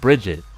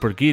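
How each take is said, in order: First: The name is said as Bridget. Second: The name is said as Brigitte.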